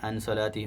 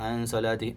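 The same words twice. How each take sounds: Both takes have the same delivery.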